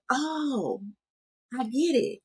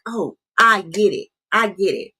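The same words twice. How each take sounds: First: Reflective realization. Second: A quick, louder aha as it clicks mid-conversation; sudden realization. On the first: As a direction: let it dawn on you quietly days later. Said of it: "It's more reflective". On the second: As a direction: blurt it out the moment you understand. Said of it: "healing can be happening right in the moment". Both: Retold or imitated.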